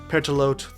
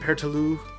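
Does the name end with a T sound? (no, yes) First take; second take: yes; no. First: The name ends in a T, rhyming with throat. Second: The name ends without a final T sound. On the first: The speaker calls it right. "Oh wait, no, it's Pertalote. ... Pertalote, throat, like that" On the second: The speaker calls it wrong. "I'd pronounce it Pertaloo, like with without the T"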